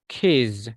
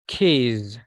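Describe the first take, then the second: No difference in how they are said.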